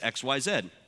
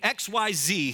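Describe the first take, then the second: First: The last letter is said the Canadian way. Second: The last letter is said the American way.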